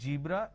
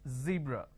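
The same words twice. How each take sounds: First: The word begins with a j sound. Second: The word begins with a z sound. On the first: The speaker calls it wrong. "It's not zebra, / they replace the Z with a J" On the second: The speaker calls it right. "it's zebra. It's a Z sound"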